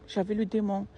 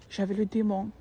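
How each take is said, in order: Both takes have the same delivery.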